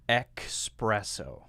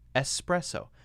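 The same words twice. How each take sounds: First: The first syllable has a 'ks' sound, like 'ex'. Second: The first syllable has a plain 's' sound, like 'es'. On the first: The speaker calls it wrong. "a lot of people say, ... But it's not called espresso. There's no X in espresso" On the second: The speaker calls it right. "It's actually pronounced espresso"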